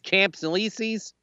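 The name is said with an American pronunciation.

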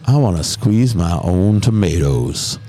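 It is said in a sexy, sultry voice.

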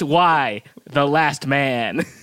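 It is said like a title, falling at the end. It names the show Y: The Last Man. The speaker calls it right.

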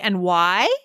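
The voice rises at the end. "You could go up and have it be a question"

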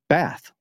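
The word is said in an American-style accent. "like Americans say"

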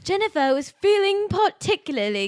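It is read in a put-on British accent.

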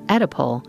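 The word is said with an American pronunciation. "the American pronunciation is"

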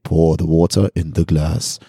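It is said in a deep voice.

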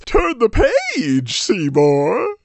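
It is read in a put-on character voice.

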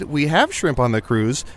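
The pitch drops, sounding discouraging and unenthusiastic. The food is best avoided. The speaker calls it wrong. "your tone went down as if we shouldn't eat it"

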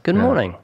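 The greeting sounds warm and friendly. The speaker calls it right. "it's got to be a warm"

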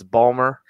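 The name is squeezed into two syllables. "this is a Balmer accent"

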